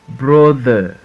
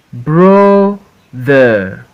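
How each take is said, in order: First: Said in the usual way. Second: BRO, pause, THER; syllable by syllable. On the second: Shown as a demonstration. Teacher reading for pupils to repeat, Brother broken as BRO-THER. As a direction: Brother split into two drawn-out beats. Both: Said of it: "we are in two syllables word".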